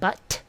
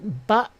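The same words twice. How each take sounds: First: The word ends in a clearly released T. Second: The word ends in a glottal stop. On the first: "rather than but" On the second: "most people actually make more of a glottal stop"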